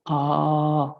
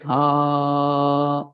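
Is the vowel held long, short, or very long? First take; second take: long; very long. First: The vowel is held for twice as long. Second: The vowel is drawn out very long. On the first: "if you use two, Dirgha" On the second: "then more unit, Pluta"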